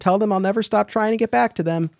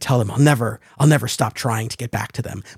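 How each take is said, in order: First: It is read flatly, without drama. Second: It is read dramatically, with strong feeling.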